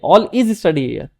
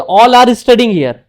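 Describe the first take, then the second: First: All is study here said very slowly as the mistake; drawn out to show the error; teacher slowly showing the sentence not to say; slow wrong example. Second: All are studying here spelled out very slowly, word by word; teacher dictating the right sentence slowly; slow model sentence. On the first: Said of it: "यहाँ पे ये नहीं बोलेंगे". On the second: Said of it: "जैसे बोलेंगे". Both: Shown as a demonstration.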